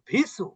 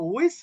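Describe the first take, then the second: First: The word begins with a v sound. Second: The word begins with a w sound. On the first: The speaker calls it wrong. "কেউ বলে আল্লাজি ইউয়াস ভিসু" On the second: The speaker calls it right. "আসলে বিসুও না ভিসুও না"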